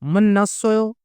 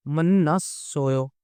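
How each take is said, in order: First: Said in the usual way. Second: Slow demo. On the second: Shown as a demonstration.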